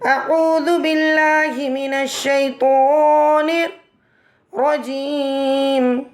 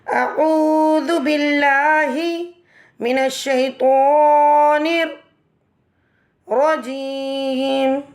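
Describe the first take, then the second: First: It is said in two parts with a pause. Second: It is said in three parts with pauses.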